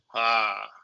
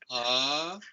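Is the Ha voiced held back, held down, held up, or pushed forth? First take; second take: held back; held up. First: It is voiced as if held back. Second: It is voiced as if held up.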